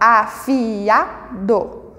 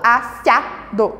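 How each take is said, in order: First: The i and a sound in separate syllables. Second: The i and a merge into one syllable. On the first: The speaker calls it right. "eu falo afiado. O I e o A, eles têm um som separado" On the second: The speaker calls it wrong. "eu não falo afiado"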